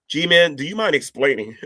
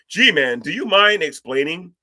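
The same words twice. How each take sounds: First: It is read in a plain, ordinary voice. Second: It is read in an exaggerated, dramatic voice.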